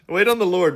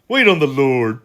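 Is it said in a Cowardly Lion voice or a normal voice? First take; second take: normal; Cowardly Lion. First: It is said in his normal voice. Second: It is said in a Cowardly Lion voice.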